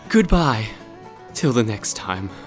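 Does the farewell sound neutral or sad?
sad. The farewell is said with a sad tone. The speaker calls it right. "I should have sounded sadder"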